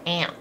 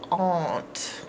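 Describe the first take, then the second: First: The vowel sounds like the one in 'ant'. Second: The vowel sounds like the one in 'awe'. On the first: The speaker calls it wrong. "some people don't pronounce this correct and say aunt" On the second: The speaker calls it right. "the proper way to say it is aunt"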